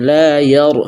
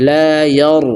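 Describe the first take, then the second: No difference in how they are said.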